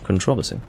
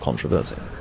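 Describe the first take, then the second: First: The first part is fully said as contro. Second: The first part is fully said as contra. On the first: The speaker calls it right. "It's contro" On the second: The speaker calls it wrong. "fully pronounce the contra part"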